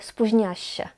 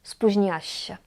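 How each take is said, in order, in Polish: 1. Dźwięk 'ł' jest pomijany. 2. Dźwięk 'ł' jest pomijany.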